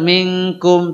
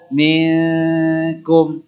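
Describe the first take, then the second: First: The n is said plainly without nasal hold. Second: The n is held with a nasal hum. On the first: The speaker calls it wrong. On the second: The speaker calls it right.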